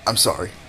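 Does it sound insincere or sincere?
insincere. It sounds half-hearted and insincere.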